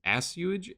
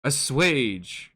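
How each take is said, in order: First: Assuage said as a-SYOO-idge, a guess; unsure pronunciation. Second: Assuage said as uh-SWAYDGE, stress on the second syllable; corrected pronunciation. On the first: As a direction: sound out assuage as ass-you-idge. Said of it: "assuage, assuage, assuage". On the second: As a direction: repeat assuage the way Google said it. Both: Shown as a demonstration.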